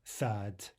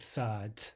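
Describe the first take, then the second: No difference in how they are said.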